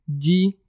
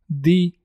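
First: The first consonant is soft, palatalized. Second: The first consonant is hard, not palatalized. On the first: "sounds softly" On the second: "And hard"

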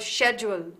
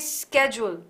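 First: It is said the British way. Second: It is said the American way. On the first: "British English, we say schedule" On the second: "Americans say schedule"

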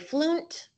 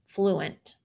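First: The word is said as one syllable. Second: The word is said as two syllables. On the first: The speaker calls it wrong. "I'm going to say flunt, but that doesn't make sense as a word" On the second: The speaker calls it right. "an open syllable, flu, and a closed syllable, ent"

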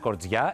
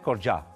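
First: The name has a standard Greek pronunciation. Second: The name has a Cypriot Greek pronunciation. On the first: The speaker calls it wrong. "δεν είναι Κορτζιά" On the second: The speaker calls it right. "είναι Κορτζιά"

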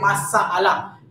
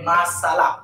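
First: The middle vowel is drawn out long. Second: The middle vowel is kept short. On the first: The speaker calls it wrong. "Kita tak sebut dia sebagai masalah" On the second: The speaker calls it right. "tetapi sebagai masalah"

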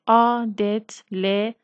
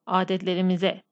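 First: It is said slowly, syllable by syllable. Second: It is said fast, as one smooth word.

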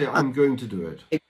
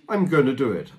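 First: 'Going to' is said as two full words. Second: 'Going to' is reduced to 'gonna'. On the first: "non contrarlo, tu puoi dirlo tranquillamente" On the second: "Gonna sta per going to"

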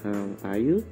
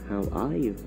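First: The voice rises at the end. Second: The voice falls at the end. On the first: The speaker calls it wrong. "เราจะไม่พูดว่า" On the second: The speaker calls it right. "เราจะพูดว่า"

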